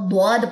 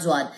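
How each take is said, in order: First: The letter begins with a heavy d-like sound. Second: The letter begins with a buzzing z-like sound. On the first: The speaker calls it right. "Arabic accent में इसको स्वाद और द्वाद पढ़ा जाता है" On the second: The speaker calls it wrong. "ज्वाद पाकिस्तानी एक्सेंट में है"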